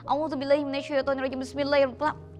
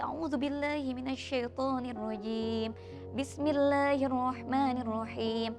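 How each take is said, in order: First: It is recited quickly and hurriedly. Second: It is recited slowly and with feeling.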